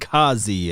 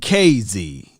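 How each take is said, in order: First: The name sounds like one word, Kazi. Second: The name sounds like the letters K and Z. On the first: The speaker calls it wrong. "I don't know why I be getting Kazi in here" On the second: The speaker calls it right. "Just like [name], I'm going to say K Z. That's the better way"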